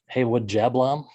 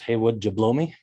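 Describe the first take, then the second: First: It is said like an ordinary two-part name. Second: It is run together like a spoken sentence. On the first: It reads as a person's real name. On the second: It sounds like a crude joke question.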